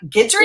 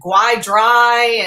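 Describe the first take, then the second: First: The first syllable sounds like 'ghee'. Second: The first syllable sounds like 'guy'. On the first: This is the intended pronunciation of the name. The speaker calls it right. "I'm like, Guidry?" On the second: This is how readers would get the name wrong. The speaker calls it wrong. "they're going to pronounce it Guai Dry"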